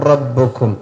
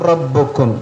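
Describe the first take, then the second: Both takes have the same delivery.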